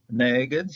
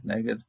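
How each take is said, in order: First: Neged stressed on NE, rising; neged with the stress at the front; accent on first syllable. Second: Neged said plainly, stressed on NE; neged with the stress at the front; accent on first syllable. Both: Shown as a demonstration. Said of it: "an accent to the front".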